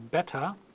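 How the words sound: It is said in a British accent. "in proper British English"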